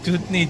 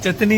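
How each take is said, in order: First: The first vowel sounds like a long 'oo'. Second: The first vowel sounds like a short 'a'. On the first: The speaker calls it right. "चूतनी है बोलते" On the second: The speaker calls it wrong. "चतनी नहीं है ना"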